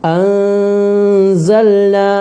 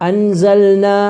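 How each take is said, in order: First: The n is hidden with a nasal hum. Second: The word is rushed without holding the n. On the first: The speaker calls it right. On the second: The speaker calls it wrong.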